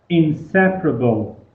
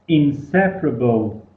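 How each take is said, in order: The two takes are said the same way.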